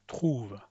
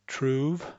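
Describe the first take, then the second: First: "trouve" with a French throat R, softer, falling. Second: "Trouve" with an English R, rising. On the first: Teacher contrasting English and French "trouve". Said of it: "and then the French one". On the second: Teacher contrasting English and French "Trouve". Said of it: "I'll make the English one". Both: Shown as a demonstration.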